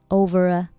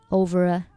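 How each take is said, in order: The two takes are said the same way.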